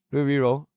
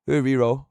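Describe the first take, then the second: No difference in how they are said.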